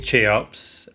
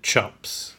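First: The name does not sound like 'chops'. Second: The name sounds just like the word 'chops'. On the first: This is believed to be the proper pronunciation. "My understanding is Cheops" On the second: This was a joking pronunciation among school friends. "much merriment among my friends when we pronounced it Chops"

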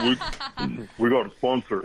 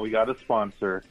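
First: It is said boldly, with more force. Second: It is said in a plain, quiet way.

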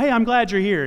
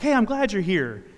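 First: It sounds casual and insincere. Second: It sounds warm and sincere.

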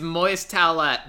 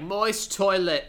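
First: The last word is said as toilette, not toilet. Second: The last word is said like plain toilet. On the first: This is the band's actual name. "It's Moist Toilette" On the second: This is how a character says the name. "he says it like Moist Toilet"

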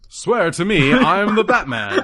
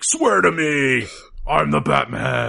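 First: It is said in a 1940s-style Batman voice. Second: It is said in a modern Batman voice.

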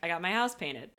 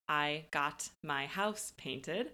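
First: The small words are shortened and run together. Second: Every word is said fully and carefully. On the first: The speaker calls it right. "When we say it quickly, it sounds more like" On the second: The speaker calls it wrong. "So oftentimes we don't say"

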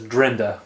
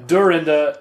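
First: The first vowel is dropped, leaving two syllables. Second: The name is said fully with three syllables. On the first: The speaker calls it wrong. "he says Drinda. He skips right over that or" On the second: The speaker calls it right.

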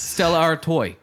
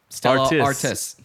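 First: The second word ends in a 'wah' sound. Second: The second word ends in an 's' sound.

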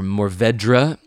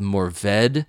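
First: Every sound of the word is pronounced. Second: Some of the word's sounds are dropped.

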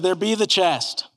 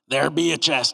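First: It is said in his normal reading voice. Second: It is said in a put-on pirate voice.

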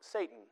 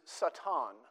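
First: The word is pronounced the English way. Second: The word is pronounced the Hebrew way. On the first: It is the familiar proper name. "We give it a different pronunciation. We call it Satan" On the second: It is the original common noun meaning adversary. "The word there in the Hebrew is Satan"

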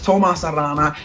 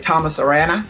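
First: The name is said the native way. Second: The name is said the American way. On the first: The speaker calls it right. "but it's" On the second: The speaker calls it wrong. "probably most Americans say"

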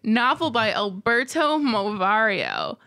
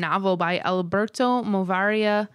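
First: The voice falls as if the name ends. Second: The voice stays up as if more follows.

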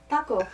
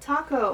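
First: The T is soft with little breath. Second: The T has a strong puff of breath. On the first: "Do a soft T?" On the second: "She puts like seven H's in there"

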